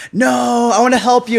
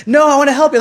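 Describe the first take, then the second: First: High, loud, pushy insisting; insistent stranger. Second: Much higher and louder, pleading insistence; more insistent stranger. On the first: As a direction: press the offer on them, eager. Stranger insists on paying hotel. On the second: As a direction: push even harder, almost begging. Stranger insists again, harder. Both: Retold or imitated.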